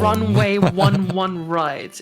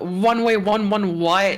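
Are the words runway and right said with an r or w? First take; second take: r; w. First: The r sounds are said as clear r sounds. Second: The r sounds come out as w sounds. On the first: The speaker calls it right. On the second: The speaker calls it wrong.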